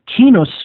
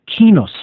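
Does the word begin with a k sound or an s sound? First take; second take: k sound; k sound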